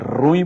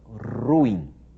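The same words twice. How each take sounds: First: The word is said as one syllable. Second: The word is said as two syllables. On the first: The speaker calls it wrong. "não diga que a coisa é ruim" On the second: The speaker calls it right. "São duas sílabas, o U e o I se separam ... a pronúncia correta"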